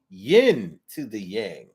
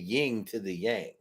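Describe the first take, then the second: First: The first word ends with an 'n' sound. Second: The first word ends with an 'ng' sound. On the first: The speaker calls it right. "but it's not that way. It's, it's yin" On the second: The speaker calls it wrong. "I thought they both ended with a G"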